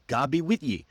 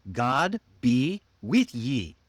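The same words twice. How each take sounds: First: GOD BE WITH YE run together more quickly; linked phrase. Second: Slow, GOD, BE, WITH YE spaced apart; long, separate words. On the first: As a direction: join the old phrase into one smooth unit. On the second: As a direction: spell out the old phrase word by word. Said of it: "was a very long sentence". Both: Shown as a demonstration.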